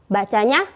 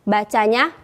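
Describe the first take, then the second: Both takes have the same delivery.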